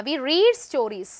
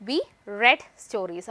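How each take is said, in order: First: "read" with a long ee, like "reed"; present-tense "read". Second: "read" with a short e, like "red"; past-tense "read". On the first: Teacher showing the present tense, "read" said as "reed". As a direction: say "read" to rhyme with "need". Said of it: "അപ്പൊ റീഡ് പറഞ്ഞു". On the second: Teacher showing the past tense, "read" said as "red". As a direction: say "read" to rhyme with "bed". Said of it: "pronounce ചെയ്യുമ്പോൾ റെഡ് എന്ന് വായിക്കും". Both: Shown as a demonstration.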